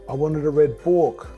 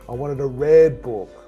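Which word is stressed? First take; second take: book; red. First: The stress is on the word book. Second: The stress is on the word red.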